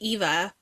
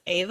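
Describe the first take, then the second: First: The name begins with an 'ee' vowel. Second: The name begins with an 'ah' vowel. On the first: This is how the speaker read it from the spelling. The speaker calls it wrong. "I see Eva because that's how it's spelled" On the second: This is how the audiobook narrator says it. The speaker calls it right. "the audiobook narrator pronounces it Ava"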